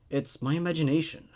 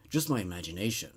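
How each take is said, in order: First: Said in the usual way. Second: Softer, lower, self-soothing murmur; hushed repeat. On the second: A narrator's reading. Character calming herself in the dark, softer and lower. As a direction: repeat it to yourself, almost under breath. Narrator reassuring herself in story.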